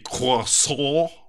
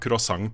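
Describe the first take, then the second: First: The word has a French-style pronunciation. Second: The word has a Norwegian-style pronunciation. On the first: Nobody actually says it this way. "Vi går ikke rundt og sier croissant" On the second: This is how people actually say it. "når vi skal ha croissant på kafé"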